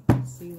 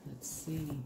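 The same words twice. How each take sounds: First: Louder burst, pitched up a touch; sudden loud. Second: Murmured softly to herself. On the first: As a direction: blurt it out loud. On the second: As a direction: drop it to a soft murmur. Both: Real, not acted. Murmuring to herself while reading.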